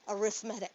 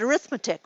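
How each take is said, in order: First: The stress is on the third syllable. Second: The stress is on the second syllable. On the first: It names a kind of sequence or series. The speaker calls it right. "It's pronounced arithmetic" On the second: It is the everyday word for basic sums. The speaker calls it wrong. "you want to pronounce it arithmetic"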